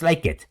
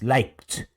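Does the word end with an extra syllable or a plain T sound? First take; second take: extra syllable; plain T. First: The ending is said as a separate syllable. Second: The word ends in a plain T sound. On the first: The speaker calls it wrong. "no es like it" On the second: The speaker calls it right. "es liked, termina en T el sonido"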